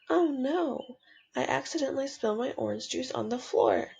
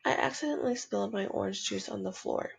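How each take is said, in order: First: It is said excitedly, like an exclamation. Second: It is said calmly, like a plain statement.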